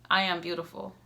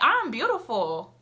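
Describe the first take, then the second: First: It is said flatly, without enthusiasm. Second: It is said with smiling enthusiasm.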